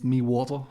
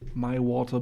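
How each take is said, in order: First: The phrase is said in an Irish-style accent. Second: The phrase is said in a plain accent.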